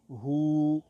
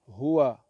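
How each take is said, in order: First: The word ends without its final vowel. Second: The word ends with a final vowel sound.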